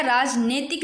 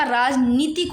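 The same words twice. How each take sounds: First: राजनीतिक with 'ne' in the middle; mispronounced with e. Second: राजनीतिक with long 'nee' in the middle; correct long i. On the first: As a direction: say राजनीतिक as 'raaj-ne-tik'. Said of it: "राजनीतिक नहीं होता". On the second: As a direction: say राजनीतिक as 'raaj-nee-tik'. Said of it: "राजनीतिक होता है". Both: Shown as a demonstration.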